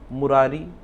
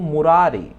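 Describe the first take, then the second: First: The final vowel is long. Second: The final vowel is short. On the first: The speaker calls it wrong. "लेकिन हम बोलते क्या है" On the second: The speaker calls it right. "अगर हम ये कहें कि सही क्या है तो"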